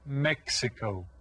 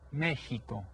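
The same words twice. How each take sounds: First: The middle consonant sounds like ks. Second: The middle consonant sounds like h. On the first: This is how English speakers say it. "we pronounce it Mexico" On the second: This is how people who live there say it. "the X sounds kind of like an H, so you pronounce it Mexico"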